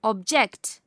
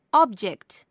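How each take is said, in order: First: Ob-JECT, weight on the last syllable; second-syllable stress. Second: OB-ject, weight on the first syllable; first-syllable stress. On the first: Teacher showing verb stress to learners, second-syllable stress. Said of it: "stress is placed on the second". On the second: Teacher showing noun stress to learners, first-syllable stress. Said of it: "stress is placed on the first syllable". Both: Shown as a demonstration.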